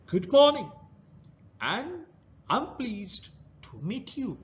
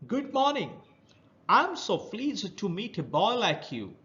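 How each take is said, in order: First: Put-on a rough crab greets the boy; rough creature voice. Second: High, hoarse crab greeting; hoarse creature voice. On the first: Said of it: "he heard a rough voice". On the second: Acted. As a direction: greet like a rough sea creature. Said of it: "a hoarse voice near him".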